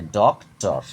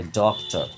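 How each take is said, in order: First: ডক্টর parted as ডক, টর; split in two syllables. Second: Said in the usual way. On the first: Shown as a demonstration. Teacher showing pupils two parts, ডক্টর as ডক-টর. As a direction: break ডক্টর after ডক. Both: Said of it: "দুবার উচ্চারণ হচ্ছে".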